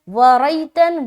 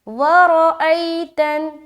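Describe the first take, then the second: First: The r and glottal stop merge into one syllable. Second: The r and glottal stop are pronounced separately. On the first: The speaker calls it wrong. "व रैतन गलत है" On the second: The speaker calls it right. "रा और हमजा को बिल्कुल अलग अलग अदा करना है"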